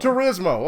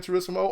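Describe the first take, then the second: First: "Turismo" with a buzzed z, "Tur-iz-mo"; corrected pronunciation. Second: "Turismo" with a hissed s, "Tur-iss-mo"; country pronunciation. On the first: Shown as a demonstration. Host repeating the co-host's correction, "Turismo" with a z. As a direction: say "Turismo" with z, not s. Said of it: "I thought it was Gran Turismo". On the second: Real, not acted. Host naming his favorite game, country "Turismo" with an s. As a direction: say "Turismo" with an s sound, not z. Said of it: "we country".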